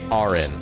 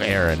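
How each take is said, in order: First: The first vowel sounds like 'ar'. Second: The first vowel sounds like 'air'. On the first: The speaker calls it wrong. "two thirds of people who try to say my name first they say Aaron" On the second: The speaker calls it right. "instead of Aaron"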